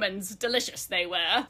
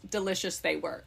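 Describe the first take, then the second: First: It is read in a put-on accent. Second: It is read in the normal voice.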